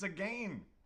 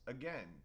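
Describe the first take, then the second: First: The second syllable sounds like the word 'gain'. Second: The second syllable does not sound like 'gain'. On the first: The speaker calls it right. "That is the correct way to say the word again" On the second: The speaker calls it wrong. "We say the word again as again, but it's not"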